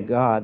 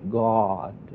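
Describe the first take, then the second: First: The word is said plainly and simply. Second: The word is drawn out in an overdone pious manner.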